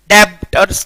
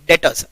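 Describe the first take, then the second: First: "डेप्टर्स" with the B sounded, "deb-ters"; mispronounced "डेप्टर्स" with a clear lip sound before T; wrong pronunciation. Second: "डेटर्स" said as "det-uhz", no B; silent B. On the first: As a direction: say "डेप्टर्स" split, stopping on the B. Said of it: "डेप्टर्स तो करना ही नहीं है". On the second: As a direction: say "डेटर्स" going straight from E to T. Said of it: "बी को pronounce नहीं करना है". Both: Shown as a demonstration.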